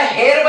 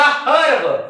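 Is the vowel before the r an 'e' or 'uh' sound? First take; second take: e; uh. First: The vowel before r is a clear e. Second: The vowel before r is a neutral uh. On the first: The speaker calls it wrong. "याला हेर्ब न म्हणता" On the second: The speaker calls it right. "न म्हणता हर्ब"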